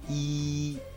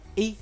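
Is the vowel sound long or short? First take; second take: long; short. First: The vowel is long. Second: The vowel is short. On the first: The speaker calls it wrong. "千万不能说成E" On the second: The speaker calls it right. "然后轻轻的说出E E"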